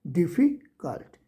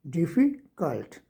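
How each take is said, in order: First: डिफ़िकल्ट slowly, with a pause after डिफ़ी; syllable pause. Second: डिफ़िकल्ट slowly, split after डिफ़ी; syllable pause. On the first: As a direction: break डिफ़िकल्ट into two parts, slowly. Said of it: "इसके लिए मुझे रुकना पड़ेगा". (डिफ़िकल्ट को धीरे, डिफ़ी के बाद रुककर) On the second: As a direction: pause once inside डिफ़िकल्ट. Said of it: "जैसे दो पार्ट्स हैं इसके". (डिफ़िकल्ट को दो हिस्सों में धीरे बोलें) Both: Shown as a demonstration.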